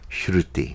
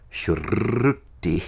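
First: The R is a single quick tongue tap. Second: The R is rolled with several tongue taps. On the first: The speaker calls it right. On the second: The speaker calls it wrong.

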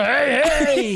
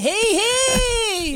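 First: It is said in a big Fat Albert voice. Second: It is said in a smaller, lighter voice.

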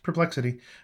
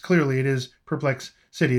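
First: It is said as the single word perplexity. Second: It is said as two words, perplex city. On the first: "I guess I pronounce it just Perplexity" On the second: "I guess it is Perplex City"

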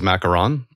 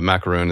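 First: The last syllable sounds like 'ron'. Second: The last syllable sounds like 'roon'. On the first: This is the original, technical pronunciation. "The technical pronunciation is macaron" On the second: This is the form commonly accepted in the United States. "macaroon is very well accepted in the States"

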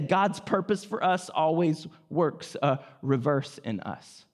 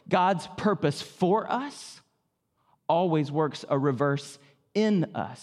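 First: The sentence is said plainly, without added emphasis. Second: The words are said with strong, deliberate emphasis.

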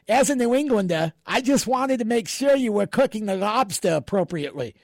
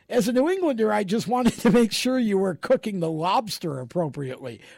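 First: It is read in a Maine accent. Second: It is read in his plain voice.

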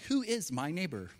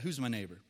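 First: 'Who is' is said as two full words. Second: 'Who is' is contracted to 'who's'. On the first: "Or you can say it properly" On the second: "Everybody say that"

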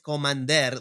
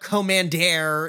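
First: The name is pronounced in a native-style way. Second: The name is pronounced in an anglicized way. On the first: The speaker calls it right. "it's Commander" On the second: The speaker calls it wrong. "it's not Commander"

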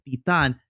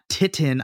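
First: The first syllable does not sound like 'tit'. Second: The first syllable sounds like 'tit'. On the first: The speaker calls it right. "It's Titan" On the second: The speaker calls it wrong. "not Titan. I was just like, bro, there's no T-I-T"

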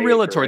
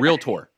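First: An extra vowel syllable is added in the middle. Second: No extra vowel syllable is added in the middle. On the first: The speaker calls it wrong. "Don't say realtor. There's no A in the middle" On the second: The speaker calls it right. "It's R-E-A-L-T-O-R"

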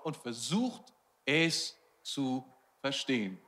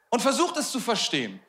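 First: It is spoken very slowly. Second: It is spoken at normal speed.

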